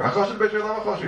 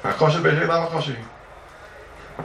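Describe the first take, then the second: First: Hakosher de beitrei lav hakosher hi rattled off quickly and higher; fast higher quote. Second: Chanted, Hakosher de beitrei lav hakosher hi drawn out slowly, word by word; slow chanted quote. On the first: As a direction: fire the line off fast, pitched up. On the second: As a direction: chant the Talmud line slowly, each word weighed. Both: Shown as a demonstration.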